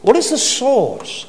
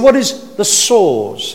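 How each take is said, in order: First: "What is the source?" lifted high, falling on "source"; stressed question. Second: Slow "What is the source?" with "source" hit hard; stress on source. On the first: Preacher asking the congregation where quarrels come from, stressed. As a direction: ask it up high, landing on "source". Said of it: "he uses the word source". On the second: Preacher repeating the verse for the congregation, stressing "source". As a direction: lean into the word "source". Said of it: "put the emphasis on the word source". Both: Shown as a demonstration.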